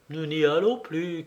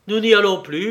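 First: Said in the usual way. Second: Plus fort et plus aigu, montée sur «n'y»; répétition indignée. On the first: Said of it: "Nous n'y allons plus, vous et moi". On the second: Acted. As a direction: renvoyer la phrase avec éclat. (Henry répète, fort et indigné)

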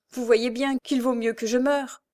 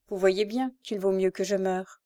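First: Raised, anguished narrated cry; heart-rending cry. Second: Lower, subdued hopelessness; deep despair. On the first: Wretched woman begging to die, heart-rending cry. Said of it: "criait d'une voix déchirante". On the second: Rising and pointing at the river, deeply despairing. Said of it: "avec un profond désespoir". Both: A narrator's reading.

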